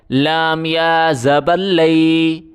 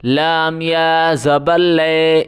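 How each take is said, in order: First: لئی read with a full ai glide; correct reading. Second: لے read as a flat le; wrong reading. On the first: Teacher showing pupils the right reading, clear ai glide. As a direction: say لئی as lai, gliding to i. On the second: Teacher showing the mistake to avoid, flat e. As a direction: say لے as plain le, the wrong way. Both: Shown as a demonstration. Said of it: "اس طرح بالکل نہیں پڑھا جائے گا".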